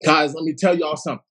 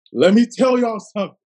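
First: Said in the usual way. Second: Higher and louder; louder repeat. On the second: Shown as a demonstration. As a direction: push it up the second time.

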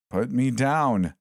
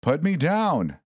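First: Slow, higher protest, words drawn out; a stretched-out plea from the toy; mannequin crying out. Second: Much higher, sharper cry; panicked squeal to be released; mannequin crying out louder. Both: A narrator's reading. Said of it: "the mannequin cried".

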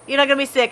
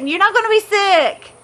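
First: Said in the usual way. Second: "be" pushed much higher in a firm rebuttal; emphatic answer. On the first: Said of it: "repeated calmer". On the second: Real, not acted. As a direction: insist with a high, firm "be". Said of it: "answering Storm's doubt".

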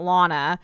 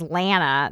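First: Lana with an open "ah" as in "father"; LAH-nuh, broad A in Lana. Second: Lana with a flat A as in "man"; LAN-uh, short front A in Lana; Lana as LANN-uh. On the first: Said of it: "not Lana". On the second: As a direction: say Lana so the first syllable rhymes with "can". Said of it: "they decide in this episode her name is Lana". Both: Shown as a demonstration.

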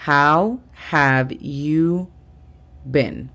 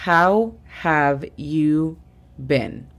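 First: "How have you been?" repetido aún más despacio; repítelo lento para que lo copien; slow repeat. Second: "How have you been?" muy despacio, palabra por palabra; slow English model. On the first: (repetición muy lenta) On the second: ("How have you been?" muy lento) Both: Shown as a demonstration. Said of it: "la tercera frase del día sería".

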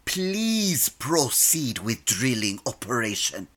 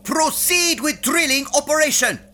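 First: Lower, softer, forced politeness; grudging polite. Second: Barked order. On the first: Captain obliging the computer's request, grudging politeness. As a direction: say please through clenched patience. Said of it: "See? That wasn't so hard". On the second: Captain ordering the computer to drill, barked command. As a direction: bark it like a drill sergeant. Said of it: "I wouldn't mind a please". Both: Acted.

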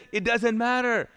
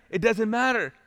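Both takes have the same delivery.

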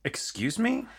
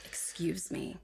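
First: High rising outraged excuse me; indignant excuse me. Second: Much softer, falling, clipped warning; quiet stern excuse me. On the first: Host demoing the phrase, high and indignant. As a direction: pitch it up in shock. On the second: Cohost demoing the phrase, quiet and stern. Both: Shown as a demonstration. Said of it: "Excuse me" works the same thing".

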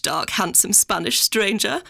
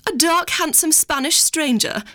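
First: Slow, lingering, rising at the end; imitating Mummy savouring it. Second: Higher, slow, dreamy posh mother; imitating Mummy swooning. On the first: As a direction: roll it out slowly, relishing "stranger". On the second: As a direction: savour every word like a romance novel.

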